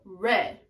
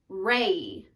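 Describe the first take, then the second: First: The vowel stays on one pure sound. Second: The vowel glides from ay into ee. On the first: The speaker calls it right. "just say re with a tall vowel" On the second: The speaker calls it wrong. "you also morph into the E"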